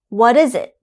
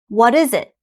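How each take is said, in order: No difference in how they are said.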